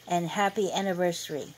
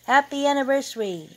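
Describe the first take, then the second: First: Said in the usual way. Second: High, loud, quick cheer; rushed, raised-voice celebratory call; group shout. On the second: A narrator's reading. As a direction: shout it like a crowd answering a toast. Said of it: "everybody shouted".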